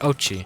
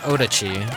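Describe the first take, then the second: First: The name has two syllables, starting like oats. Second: The name has three syllables, with a middle d. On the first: The speaker calls it right. "it's oat. Oats, like oats" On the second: The speaker calls it wrong. "Not Odachi"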